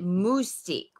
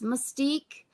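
First: The first syllable has a French-sounding vowel. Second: The first syllable sounds like 'muss'. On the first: "which is how a lot of the, you know, sort of Frenchy say it" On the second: "is it M-U-S-S Mystique?"

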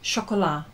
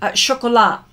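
First: The word ends without a T sound. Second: The final T sound is pronounced. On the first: The speaker calls it right. "Did I say it right now" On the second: The speaker calls it wrong. "Oh, don't pronounce the T"

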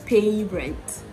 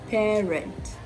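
First: The first vowel sounds like 'ay'. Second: The first vowel sounds like 'air'. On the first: The speaker calls it wrong. "So it's not pay rent" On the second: The speaker calls it right. "the diphthong air"

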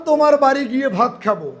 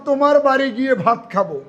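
No difference in how they are said.

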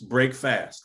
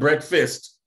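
First: The first part sounds like 'break', said separately. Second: The first part sounds like 'breck', run together. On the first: It means ending a period without eating. The speaker calls it right. "We're breaking the fast" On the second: It is just the ordinary morning meal. The speaker calls it wrong. "not breakfast"

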